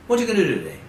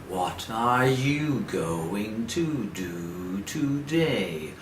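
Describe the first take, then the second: First: It is said fast and reduced. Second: It is said slowly and fully.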